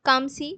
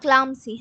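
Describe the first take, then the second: First: No L sound follows the first consonant. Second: An L sound follows the first consonant. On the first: It is the actual pronunciation. The speaker calls it right. "Actually এর উচ্চারণ কিন্তু কামসি" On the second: It helps recall the spelling. The speaker calls it wrong. "Spelling এর জন্য আমি ক্লাম ক্লাম বলি"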